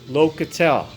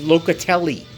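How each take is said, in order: First: The name is clipped, with the final vowel dropped. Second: The name is said in full, final vowel included.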